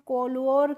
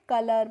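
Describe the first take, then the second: First: The first syllable sounds like 'co' with an o vowel. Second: The first syllable sounds like 'cuh' with a short vowel. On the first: The speaker calls it wrong. "कोलोर करके नहीं पढ़ते हैं" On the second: The speaker calls it right. "कलर पढ़ते हैं"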